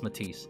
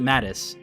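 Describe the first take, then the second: First: The second syllable has a long 'ee' vowel. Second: The second syllable has a short vowel. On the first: This is the correct pronunciation. The speaker calls it right. "it was made clear that was Matisse" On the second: This is the mistaken earlier pronunciation. The speaker calls it wrong. "for the longest time, I pronounced it Mattis"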